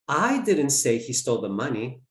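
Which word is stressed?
I. The word 'I' is stressed. Someone else said it. "Someone else did"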